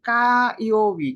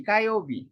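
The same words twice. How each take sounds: First: কাইওবি said slowly, each syllable spaced, a bit louder; slow model reading. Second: Said in the usual way. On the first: Shown as a demonstration. Teacher showing students how to read কাইওবি, slow and careful. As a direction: spell out কাইওবি slowly for learners. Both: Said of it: "ফায়ারের কাঞ্জিতে কি কি হইতে পারে?".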